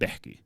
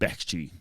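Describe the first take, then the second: First: The word is said with a k sound. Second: The word is said with a ch sound. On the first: This is the general Arabic form. "So in Arabic, I would say" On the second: This is the Iraqi dialect form. "but in Iraqi, it'd be like"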